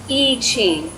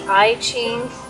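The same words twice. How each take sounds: First: The first word sounds like 'ee'. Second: The first word sounds like 'eye'. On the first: The speaker calls it right. "The I is an E sound" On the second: The speaker calls it wrong. "Mainly Western speakers will say that"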